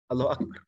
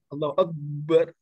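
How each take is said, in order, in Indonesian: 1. Dibaca biasa, satu b, tidak ada w tambahan. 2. Bunyi b di akbar digandakan.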